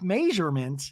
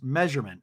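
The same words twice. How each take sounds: First: The first vowel sounds like 'may'. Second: The first vowel sounds like 'meh'.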